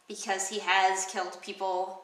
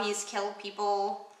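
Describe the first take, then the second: First: "has" leaned on and lengthened; stress on has. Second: Said in the usual way. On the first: Shown as a demonstration. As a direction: hit the word "has" to correct it.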